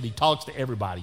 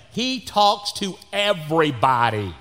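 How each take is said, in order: First: Said in the usual way. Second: "he talks to everybody" slow, louder and high; emphatic exasperation. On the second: Real, not acted. Exasperated at his friend's chattiness.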